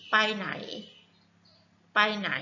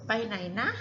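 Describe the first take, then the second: First: ไปไหน said short and direct; ไปไหน flat and plain; plain Thai question. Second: ไปไหนนะ with a gentle trailing นะ; ไปไหนนะ gently; softened with นะ. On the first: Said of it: "softness tone like this". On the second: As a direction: soften the question with นะ. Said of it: "soften like this". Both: Shown as a demonstration.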